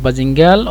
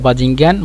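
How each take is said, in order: First: The word ends with an L sound. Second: The word ends with an N sound. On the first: "মাঝে মধ্যে লাম ব্যবহার করে" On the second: "মাঝে মধ্যে নুন ব্যবহার করে"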